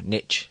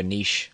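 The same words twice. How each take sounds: First: "niche" said as "nitch", American-style; short vowel and "tch" ending in "niche"; American pronunciation. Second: Said in the usual way. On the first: Shown as a demonstration. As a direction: say "niche" to rhyme with "rich". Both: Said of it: "as the Americans would say".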